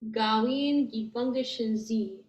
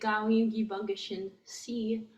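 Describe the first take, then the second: First: The final syllable begins with a z sound. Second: The final syllable begins with an s sound. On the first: The speaker calls it right. "it makes that S turn into a Z" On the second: The speaker calls it wrong. "Try and say gawin gibangishin C, and it's harder"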